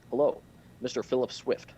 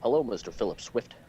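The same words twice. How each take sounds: First: Loud "Hello", pause, then "Mister Philip Swift"; Barack Obama, long pauses. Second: Louder amateur presidential impersonation; rough impersonation of a president, run together; Barack Obama. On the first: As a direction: break after "Hello" in a rough presidential impersonation. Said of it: "he has long pauses". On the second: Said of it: "no, he has long pauses". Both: Acted.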